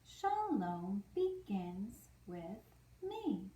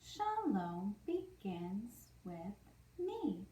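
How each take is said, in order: Both takes have the same delivery.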